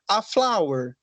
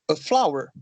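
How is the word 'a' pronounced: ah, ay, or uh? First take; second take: ah; uh. First: The article sounds like an open 'ah'. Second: The article is a quick, weak 'uh' sound. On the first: "falar igual o nosso alfabeto" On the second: "um sonzinho rápido"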